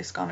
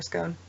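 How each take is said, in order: First: "scone" with a short o, rhyming with gone. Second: "scone" with a long o, rhyming with bone. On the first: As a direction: say "scone" like "skon". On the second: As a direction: say "scone" like "skohn". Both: Shown as a demonstration. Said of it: "if you guys say scone or scone".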